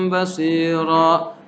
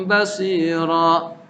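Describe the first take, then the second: Both takes have the same delivery.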